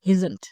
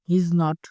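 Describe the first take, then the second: First: The words are squeezed into one contracted form. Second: Every word is said in full.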